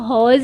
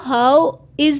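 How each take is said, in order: First: It is said as one short contracted word. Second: It is said as two separate full words. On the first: The speaker calls it right. "हमने इसको हॉज ही पढ़ना है" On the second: The speaker calls it wrong. "हमने अब इसको हाउ इज नहीं पढ़ना"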